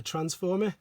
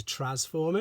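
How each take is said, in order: First: Said in the usual way. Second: Transformer without the first N, as Trasformer; altered brand name. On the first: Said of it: "instead of Transformer". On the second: Shown as a demonstration. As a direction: drop the N in Transformer, saying "tras-former". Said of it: "They changed it to Transformer instead of".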